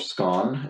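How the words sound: It is said the way some UK regions say it.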